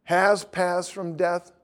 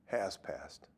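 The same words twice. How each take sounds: First: "has passed from death" slowed right down, "has" held and rising; slow, deliberate "has passed from death"; stress on has. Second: "Has passed" much lower and softer, "Has" falling; a hushed answer as she finally gets it; softly realising "Has passed"; quiet answer. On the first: Shown as a demonstration. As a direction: draw out "has" slowly to make her notice it. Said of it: "does it say". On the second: Retold or imitated. Her soft realising answer.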